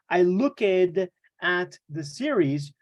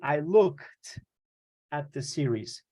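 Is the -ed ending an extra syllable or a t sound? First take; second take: extra syllable; t sound. First: The ending is pronounced as an extra syllable. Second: The ending is pronounced as a t sound. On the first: The speaker calls it wrong. "We do not say" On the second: The speaker calls it right. "You say"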